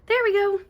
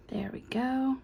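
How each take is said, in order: First: Much higher and bright with satisfaction; pleased. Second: Soft unvoiced whisper. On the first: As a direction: pop it up, pleased it fits. Piece finally in place. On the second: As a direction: breathe it out as you finish. Quietly fitting a small piece. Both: Real, not acted.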